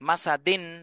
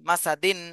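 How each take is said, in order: Both takes have the same delivery.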